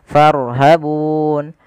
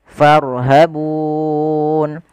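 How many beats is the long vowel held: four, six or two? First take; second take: two; four. First: The long vowel is held for two beats. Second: The long vowel is held for four beats. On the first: "Boleh kita panjangkan dua harokat" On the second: "boleh empat harokat"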